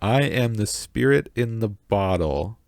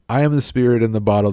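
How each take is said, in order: First: It is read at a noticeably slower pace. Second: It is read at a normal, quicker pace.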